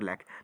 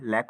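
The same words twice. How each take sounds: First: The word ends in an aspirated kh sound. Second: The word ends in a plain k sound. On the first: "क और ख दोनों हो सकता है" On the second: "क और ख दोनों हो सकता है"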